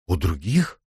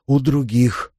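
First: "других" rising sharply at the end; puzzled echo question. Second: Put-on higher childlike exclamation, a touch thrilled; half-joyful, half-frightened exclamation. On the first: Ivana asks the girls back, questioning rise on "других". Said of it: "переспросила Ивана". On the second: Girls share a secret, half gleeful and half scared. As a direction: blurt it like children sharing a secret. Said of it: "воскликнули девочки полурадостно, полуиспуганно". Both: A narrator's reading.

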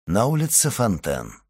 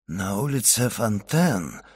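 First: Said in the usual way. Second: Choked, slow and softer; strangled voice. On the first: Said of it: "продолжал Вильфор сдавленным голосом". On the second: A narrator's reading. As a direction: force the words through a tight throat. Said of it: "сдавленным голосом". (сдавленным голосом)

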